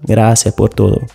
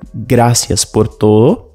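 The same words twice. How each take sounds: First: The s at the end of gracias is dropped. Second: The s at the end of gracias is pronounced.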